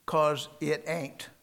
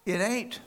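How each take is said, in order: First: 'cause it ain't drawn out slowly and firmly; father's way of saying it. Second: "It ain't" said higher and louder with a rising lift on ain't; repeating the phrase. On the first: Retold or imitated. Preacher imitates his father's blunt ending, slow and firm. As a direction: lean on "'cause it ain't" like a dad laying down a rule. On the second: Shown as a demonstration. Preacher echoes his father's words to the crowd, lifted and punchy. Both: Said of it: "That's the way he said it".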